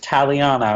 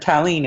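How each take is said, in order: First: The name is said as Ta-li-a-na. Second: The name is said as Ta-leen. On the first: The speaker calls it right. "it's Taliana" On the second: The speaker calls it wrong. "or Talene"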